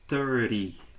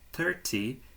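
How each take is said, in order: First: The middle T is dropped, leaving an R sound. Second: The middle T sound is clearly pronounced.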